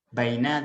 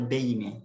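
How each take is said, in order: First: The first vowel sounds like 'ai'. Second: The first vowel sounds like 'ei'.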